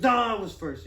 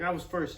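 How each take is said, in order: First: Louder, higher mock-child contradiction; rival kid's retort. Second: Put-on slightly raised kid's protest; kid's claim. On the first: Rival kid arguing over first in line, loud retort. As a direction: hit NO loudly and argue back. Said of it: "And he goes". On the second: Kid in line to the one who pushed him, mild insistence. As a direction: stake the claim, a little higher. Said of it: "And I was like".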